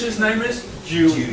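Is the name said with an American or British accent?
British. Dewey is said with a British accent.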